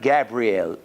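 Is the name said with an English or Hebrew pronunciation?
English. It is said with an English pronunciation. The speaker calls it wrong. "it's not Gabriel"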